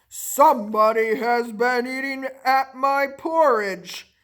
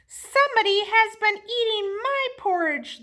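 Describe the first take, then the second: First: A big bear's deep, rough, gruff voice. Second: A middle-sized bear's medium, ordinary voice.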